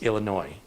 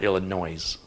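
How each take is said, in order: First: The word ends in a vowel, final s silent. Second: The word ends in a z sound, like noise. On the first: The speaker calls it right. "it's Illinois" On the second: The speaker calls it wrong. "not Illinois. There's no noise in Illinois"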